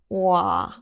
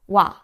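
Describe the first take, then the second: First: The two vowels are pulled apart, slowly. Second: The vowels glide quickly into one short syllable. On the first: The speaker calls it wrong. "Do not separate the vowels too much. Do not say or like wa" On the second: The speaker calls it right. "It should be shorter than that"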